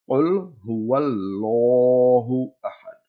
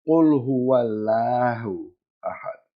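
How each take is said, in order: First: The L in Allah is full and rounded. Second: The L in Allah is flat and thin. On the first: The speaker calls it right. "We pronounce it round or full mouth" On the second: The speaker calls it wrong. "that's flat sound. And that's incorrect"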